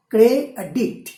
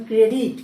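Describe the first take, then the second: First: "Cray আর ডিক্ট" split into two separate beats; syllable by syllable. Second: Said in the usual way. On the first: Shown as a demonstration. Teacher counting syllables for students, "Cray আর ডিক্ট" split in two.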